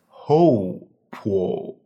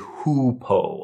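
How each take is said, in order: First: The first syllable sounds like "ho". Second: The first syllable sounds like "who". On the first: The speaker calls it right. "In Chinese, this would be pronounced Ho Po" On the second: The speaker calls it wrong. "please do not say Hu Po"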